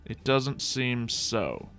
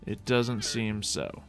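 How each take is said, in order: Both takes have the same delivery.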